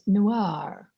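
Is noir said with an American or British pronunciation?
American. It is said with an American pronunciation. "The Americans noir"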